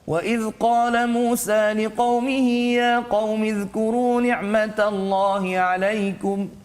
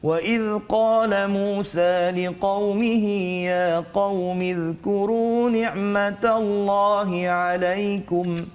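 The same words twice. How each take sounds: First: It is recited at a medium, moderate speed. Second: It is recited fairly slowly, slightly quicker. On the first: "dia taklah sangat laju, tak sangat perlahan" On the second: "tartil itu laju sedikit"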